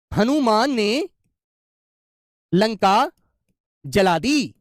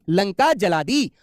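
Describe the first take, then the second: First: "Hanuman ने ... लंका ... जला दी" with long pauses between the parts; dramatic pauses. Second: "Lanka जला दी" drawn out word by word; very slow. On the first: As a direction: build suspense with a pause before Lanka. (हर हिस्से के बीच लंबा ठहराव) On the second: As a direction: stretch each word for the class to hear. (बहुत धीरे-धीरे, शब्द खींचकर) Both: Shown as a demonstration. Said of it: "जैसे मैंने कहा".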